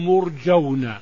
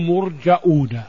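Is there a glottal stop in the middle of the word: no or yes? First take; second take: no; yes. First: No glottal stop is heard in the middle. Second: A glottal stop is heard in the middle. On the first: "هذه قراءة قريش، أصل لغة قريش تسهيل الهمزة" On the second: "3 من القراء 7 قرأوا مرجؤون"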